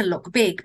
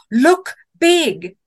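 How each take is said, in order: First: Said in the usual way. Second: Loud, high, punched-out instruction; emphatic command. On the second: A narrator's reading. Camper recalling what she read about bears, emphatic command. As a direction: declaim each word like an urgent rule.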